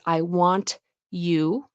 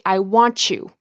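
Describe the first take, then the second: First: The t and y are said separately. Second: The t and y merge into a ch sound. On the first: "the only way you recognize it is" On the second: "chew, instead of you"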